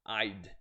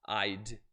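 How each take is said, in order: First: The words are contracted into one quick syllable. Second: The same.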